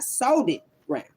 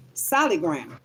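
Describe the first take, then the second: First: "sold it" said as two words, sold-it; wrong pronunciation. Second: "Solid" said clearly as SOL-id; right pronunciation. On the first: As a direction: split it into "sold it ground". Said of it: "Not sold it ground". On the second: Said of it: "not solid ground". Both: Shown as a demonstration.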